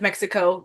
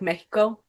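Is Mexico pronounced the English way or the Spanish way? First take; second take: English; Spanish. First: Mexico is said with an English pronunciation. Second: Mexico is said with a Spanish pronunciation. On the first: This is how English speakers name the country. "instead of" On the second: This is how the country's own people name it.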